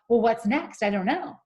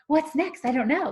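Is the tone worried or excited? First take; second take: worried; excited. First: It sounds anxious and worried. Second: It sounds eager and excited.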